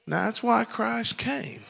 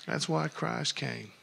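First: High, ringing proclamation of why Christ came; proclaimed. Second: Quiet, settled repeat; soft echo. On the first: Preacher to his congregation, calling it out high. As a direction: lift it and proclaim it. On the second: Preacher to his congregation, echoing it softly. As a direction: drop it down and let it sink in. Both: Real, not acted.

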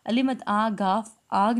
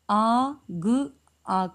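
First: Letter names अलिमत आ गाफ spelled out before आग; teacher showing pupils the wrong reading. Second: Sounds आ and ग said slowly, then blended into आग; teacher showing pupils the right reading. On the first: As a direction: read it out letter name by letter name. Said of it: "नहीं पढ़ना". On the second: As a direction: say just the sounds, then join them. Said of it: "आ ग आग पढ़ना है". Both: Shown as a demonstration.

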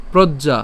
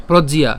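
First: "প্রজ্ঞা" as prod-ja, no i-glide; wrong pronunciation. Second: "প্রজ্ঞিয়া" as prod-ji-ya, louder; correct pronunciation. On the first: Teacher showing the mistake, two-syllable "প্রজ্ঞা". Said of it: "প্রজ্ঞিয়া, not প্রজ্ঞা". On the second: Teacher correcting the word, emphatic three-syllable "প্রজ্ঞিয়া". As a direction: add an i-ya glide in "প্রজ্ঞিয়া". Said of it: "কেন প্রজ্ঞিয়া?". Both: Shown as a demonstration.

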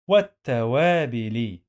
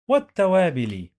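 First: والتوابل syllable by syllable, long "waa"; sounded out. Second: Said in the usual way. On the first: Shown as a demonstration. Teacher drilling learners on reading, sounded-out والتوابل. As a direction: stretch والتوابل out as wat-ta-waa-bi-li.

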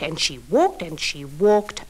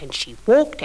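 First: And she walked, stretched slow and low; walked dragged long to show the long way; slow drawn-out walked. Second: Said in the usual way. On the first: Acted. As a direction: draw out the walking, lower and slow. Storyteller repeats walking.

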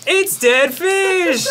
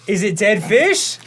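First: High, slow, dismayed exclamation; horrified cry. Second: Said in the usual way. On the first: Real, not acted. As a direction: shout it out in disgusted shock. Horrified at dead fish bean.

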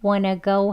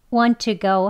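First: Wanna go with no t, 'wah-nuh go'; reduced wanna. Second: Want to go with both words sounded; unreduced want to. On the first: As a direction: squeeze want to into wanna. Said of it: "더 이렇게 줄여서". (wanna로 줄여서 발음) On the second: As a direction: keep want and to as separate words. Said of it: "하지 않고요". (want to를 줄이지 않고 발음) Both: Shown as a demonstration.

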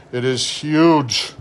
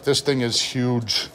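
First: It is huge drawn out slowly, weight on huge; slow marvelling stress on huge; slow emphatic repeat. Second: Said in the usual way. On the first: Real, not acted.

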